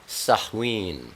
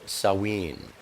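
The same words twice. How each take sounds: First: Samhain said "sah-hween", with silent M; Samhain with a breath of H before "ween"; correct pronunciation. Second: Samhain said "sah-ween", with no H; Samhain with silent M and a plain W glide; alternative pronunciation. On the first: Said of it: "pronounced Samhain". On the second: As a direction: pronounce Samhain slowly as "sow-EEN", lower. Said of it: "or Samhain". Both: Shown as a demonstration.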